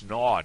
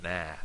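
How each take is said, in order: First: Loud, drawn-out "na" rhyming with "law"; rounded southern vowel. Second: Short "na" with the vowel of "nap"; flat northern vowel. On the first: Teacher correcting the vowel, "na" said as "naw". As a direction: say "na" long and open, like "naw". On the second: Teacher showing the vowel to avoid, "na" said as in "nap". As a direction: say "na" with a front "a", like "nah" in "nap". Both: Shown as a demonstration. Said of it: "not na".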